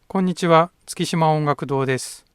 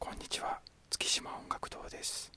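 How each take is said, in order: First: The voice is loud and full. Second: The voice is quiet and soft. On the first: "この声は大きく出して収録しています。" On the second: "小さく喋ります。"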